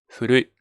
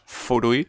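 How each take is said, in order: First: The first sound is a soft, h-like breath. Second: The first sound is a strong, firm f. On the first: The speaker calls it right. "más como casi como una H" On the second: The speaker calls it wrong. "no es furui"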